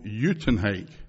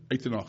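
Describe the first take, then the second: First: The name is said with English sounds. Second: The name is said with Afrikaans sounds.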